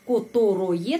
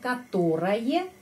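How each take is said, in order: First: Every o is said as a full o sound. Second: The unstressed vowels are reduced toward a. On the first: "kita menulis которое" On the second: "tapi pengucapannya которое"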